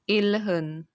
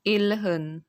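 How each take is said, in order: First: The middle consonants sound like l then h. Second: The middle consonants sound like l then h.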